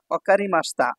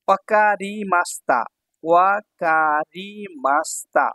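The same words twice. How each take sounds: First: Said in the usual way. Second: ওয়াকারিমাস্তা slowly, stretched ever further; syllable-by-syllable. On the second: Shown as a demonstration. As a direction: draw out each syllable of ওয়াকারিমাস্তা. Teacher sounds out new phrase.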